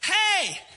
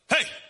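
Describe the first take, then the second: First: The greeting is said in a warm, welcoming tone. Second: The greeting is said in a cold, unwelcoming tone. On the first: The speaker is glad to see you. "That's very welcoming" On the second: The speaker is not glad to see you. "It's not so welcoming"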